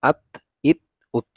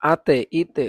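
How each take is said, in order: First: আত, ইত, উত closed cleanly on the ত with no echo vowel; correct reading. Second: আতে, ইতে with an added echo vowel after the ত, voice higher; wrong reading. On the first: Teacher giving pupils the correct reading without qalqala. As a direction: stop each of আত, ইত, উত flat, without any bounce. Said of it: "এগুলোকে আমরা পড়বো". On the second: Teacher showing pupils how not to read the letter ত. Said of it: "এভাবে পড়া যাবে না". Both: Shown as a demonstration.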